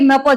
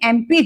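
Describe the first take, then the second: First: The letters are read as short plain syllables. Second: Each letter is said by its full name. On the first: The speaker calls it wrong. "इसको म प नहीं कहते आप" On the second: The speaker calls it right. "आप क्या कहते हो"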